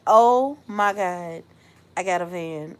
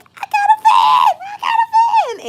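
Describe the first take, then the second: First: Mild stunned disbelief. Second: Very high, loud jubilant shouting; excited scream. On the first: Acts out the news sinking in. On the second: Telling everyone around her about the van, screaming with excitement. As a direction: shriek the news out twice. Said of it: "I screamed". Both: Retold or imitated.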